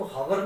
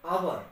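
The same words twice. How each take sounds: First: हवर said with a breathy h at the start; wrong h sound. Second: आवर said with no h sound, starting on the vowel; silent h. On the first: Teacher showing students the wrong way to say हवर. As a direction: put an h in front and say हवर as "hawar". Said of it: "इसको हवर नहीं पढ़ रहे हैं". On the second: Teacher showing students the right way to say आवर. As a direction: drop the h and say आवर as "aawar". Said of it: "इसकी pronunciation क्या है". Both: Shown as a demonstration.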